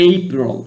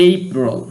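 No difference in how they are said.

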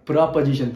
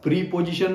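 First: The first vowel is a short reduced sound. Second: The first vowel is a long 'ee' sound. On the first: The speaker calls it right. "It is प्रपोजिशन, pronunciation इसका है प्रपोजिशन" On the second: The speaker calls it wrong. "प्रीपोजिशन not"

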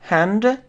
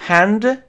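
Both takes have the same delivery.

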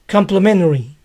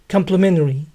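First: The T sound is dropped. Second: The T sound is dropped.

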